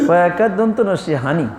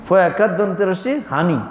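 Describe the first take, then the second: First: Said in the usual way. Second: ফয়াকার দন্ত রসি হানি in Noakhali dialect. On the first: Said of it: "এবার কেমন উচ্চারণ হলো?". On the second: Shown as a demonstration. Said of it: "কারা কয়? নোয়াখালী বলে না?".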